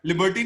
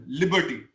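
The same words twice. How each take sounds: First: लिबर्टी with the wrong stress and vowels, as learners say it; wrong pronunciation. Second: लिबर्टी as the English word Liberty, run together; correct pronunciation. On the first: Teacher showing a student the wrong way to say it. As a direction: model the mistake on लिबर्टी. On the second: Teacher modelling the right way for a student. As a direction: say लिबर्टी in one smooth go. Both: Shown as a demonstration. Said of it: "लिबर्टी नहीं कहना आपने".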